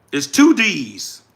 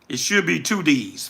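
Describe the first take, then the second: First: "two D's" slow and deliberate, each word weighted; stress on two D's. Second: Said in the usual way. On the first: Real, not acted. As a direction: lean on "two D's" slowly to correct the spelling.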